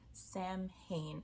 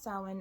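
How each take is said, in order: First: It is said as two parts, 'Sam Hain'. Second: It is not said as 'Sam Hain'. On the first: The speaker calls it wrong. "the way I used to pronounce it before I realized" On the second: The speaker calls it right. "it's pronounced Samhain"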